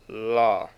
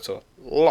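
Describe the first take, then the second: First: The syllable is said on a high pitch. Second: The syllable is short, high and abruptly stopped. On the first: "high tone" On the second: "the stop tone, which would be uh, with the short and it's high"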